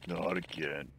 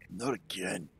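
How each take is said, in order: First: Said in the usual way. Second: Put-on tired old man, voice lowered; old guy voice. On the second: Shown as a demonstration. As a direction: try it as a weary old man. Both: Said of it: "I can't get the old guy voice".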